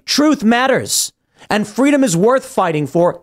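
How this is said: It is said with strong emotion.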